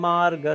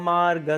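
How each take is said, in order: The two takes are said the same way.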